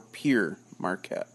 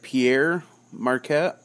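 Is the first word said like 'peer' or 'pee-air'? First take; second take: peer; pee-air. First: The first word sounds like English 'peer'. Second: The first word sounds like French 'Pierre'. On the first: "or Pier Marquette" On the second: "You either hear it Pierre Marquette"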